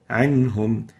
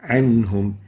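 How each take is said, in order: No difference in how they are said.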